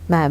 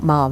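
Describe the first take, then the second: First: The vowel is short, as in ham. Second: The vowel is long, as in farm. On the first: The speaker calls it right. "Ma'am as in ham" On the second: The speaker calls it wrong. "not ma'am as in farm"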